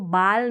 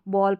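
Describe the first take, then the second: First: The vowel sounds like a long 'ah'. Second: The vowel sounds like a rounded 'aw'. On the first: The speaker calls it wrong. "इसको बाल नहीं पढ़ेंगे" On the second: The speaker calls it right. "बॉल पढ़ेंगे"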